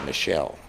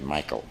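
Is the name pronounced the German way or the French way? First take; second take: French; German. First: The name is pronounced the French way. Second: The name is pronounced the German way.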